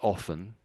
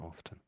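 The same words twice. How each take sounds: First: The T sound is silent. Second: The T sound is clearly pronounced. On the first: "most people say often" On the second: "a small number of people pronounce the T"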